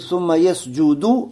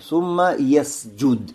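First: The last word ends with a short vowel. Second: The last word ends without a vowel. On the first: "может быть" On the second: "а можно что? ... И так можно. ... Она глагол делает маджзум"

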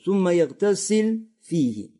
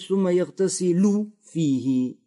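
First: The verb ends with no vowel. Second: The verb ends with a short vowel. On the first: "делается что? Джазм. Да? Сукун ставится на конце" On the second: "Или читать"

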